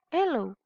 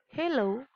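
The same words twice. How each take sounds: First: British "hello."; British accent. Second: American "hello,"; American accent. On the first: Teacher shows students how a British might pronounce the word, British accent. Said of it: "a British might pronounce the word". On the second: Teacher shows students how an American might pronounce the word, American accent. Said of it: "an American might pronounce the word". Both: Shown as a demonstration.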